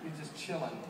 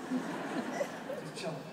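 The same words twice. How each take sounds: First: Said in the usual way. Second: "Just chilling" stretched very slowly and higher; drawn-out laid-back. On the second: Shown as a demonstration. Pastor describing his calm son, "Just chilling" drawn out slowly. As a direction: savour "Just chilling" like a kid without a care.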